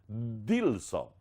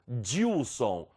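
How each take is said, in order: First: The d is a clean stop without hissing. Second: The d is followed by a hissing dj sound. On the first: "Eu deveria apenas encostar a língua ... e fechar o ar" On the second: "nós falamos Dilson ... Tá vendo que é um, um chiado?"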